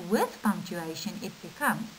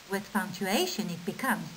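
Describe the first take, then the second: The two takes are said the same way.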